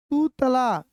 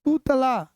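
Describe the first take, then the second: No difference in how they are said.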